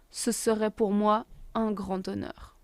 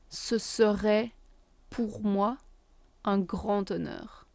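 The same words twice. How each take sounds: First: The sentence is said at a faster pace. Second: The sentence is said at a slower pace.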